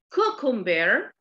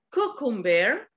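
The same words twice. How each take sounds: The two takes are said the same way.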